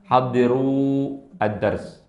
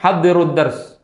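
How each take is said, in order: First: The words are said separately and clearly. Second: The words are run together quickly. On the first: "kalau mau dipisah biar biar jelas" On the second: "mau dibaca cepat disambung"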